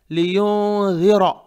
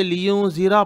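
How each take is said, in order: First: लियुनज़िरा slow, nasal hum held, ज़ as soft tongue-tip dh like English "this"; correct soft dh. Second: लियुनज़िरा quick, plain buzzing z, no held hum; careless wrong z. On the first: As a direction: draw out लियुनज़िरा with tongue between teeth on ज़. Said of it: "यहाँ भी देखिए जी है". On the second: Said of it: "लापरवाही से". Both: Shown as a demonstration.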